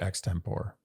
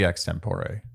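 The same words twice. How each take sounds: First: The word has an English-style pronunciation. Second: The word has a Latin-style pronunciation. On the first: This is the form adapted to English. "unless it's a- anglified, which would be extempore" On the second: This is the original Latin form. "should be extempore"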